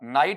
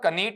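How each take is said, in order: First: It starts with n, with an eye vowel. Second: A k sound starts it, with an ee vowel. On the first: The speaker calls it right. "बल्कि क्या बनेगा, नाइट बनेगा" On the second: The speaker calls it wrong. "कनीट नहीं होगा"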